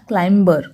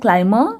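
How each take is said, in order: First: The b sound is clearly pronounced. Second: The b sound is silent, not pronounced. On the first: The speaker calls it wrong. "Not क्लाइंबर" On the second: The speaker calls it right. "इस word का pronunciation है क्लाइमर"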